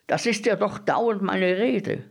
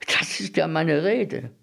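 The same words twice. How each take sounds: First: High-pitched, worked-up insistence; exasperated, high-voiced insistence; insistent agreement. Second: Raised pitch, mildly insistent; mildly vindicated, higher voice; eager agreement. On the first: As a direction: push the pitch right up to insist. Bread dealer repeats himself more insistently. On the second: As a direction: chime in a little higher. Bread dealer agrees, first take. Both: A narrator's reading.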